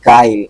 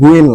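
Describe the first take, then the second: First: The word begins with a plain 'g' sound. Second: The word begins with a 'gw' sound. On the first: The speaker calls it right. "উচ্চারণ হবে কি গাইল" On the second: The speaker calls it wrong. "এটা কিন্তু গুইল না"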